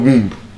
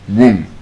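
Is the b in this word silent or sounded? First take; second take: sounded; silent. First: The b is sounded at the end. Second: The b is silent at the end. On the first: The speaker calls it wrong. "It's not womb" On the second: The speaker calls it right. "Your womb"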